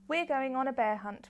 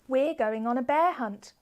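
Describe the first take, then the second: First: It is read in a flat, monotone voice. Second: It is read with lively, varied expression. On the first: The speaker calls it wrong. "kind of more monotone, how you might read to yourself" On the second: The speaker calls it right. "I am really using expression in my voice"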